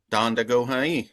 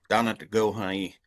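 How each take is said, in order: First: Donda Gohai, with a D sound inside Donda; variant pronunciation. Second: Donna Gohai, no D after the N in Donna; alternative pronunciation. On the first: Showing listeners one way to say it, variant pronunciation Donda Gohai. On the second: Showing another way to say it, alternative pronunciation Donna Gohai. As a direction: say Donna Gohai with a plain N in the middle. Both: Shown as a demonstration. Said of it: "lots of different ways to say that".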